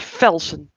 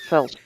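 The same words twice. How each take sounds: First: The name begins with an F sound. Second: The name begins with a V sound. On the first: The speaker calls it wrong. "then would would be Velsen instead of" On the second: The speaker calls it right. "instead of Velsen"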